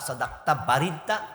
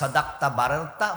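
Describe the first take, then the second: First: The last word has an 'i' vowel: barirta. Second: The last word has an 'a' vowel: bararta. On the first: "Z দিয়েও বলা যায়" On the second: "জবর দিয়েও বলা যায়"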